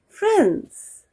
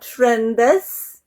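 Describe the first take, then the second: First: It is one syllable with no added vowel. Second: It has an extra vowel syllable before the s. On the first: The speaker calls it right. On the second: The speaker calls it wrong. "Not friendes"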